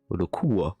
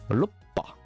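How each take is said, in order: First: It is said roku-wa, ending in wa. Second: It is said roppa, ending in pa. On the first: "C'est le wa" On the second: "ça va garder, pour certains, le bas et le pas"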